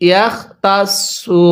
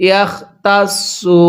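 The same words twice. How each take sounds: The two takes are said the same way.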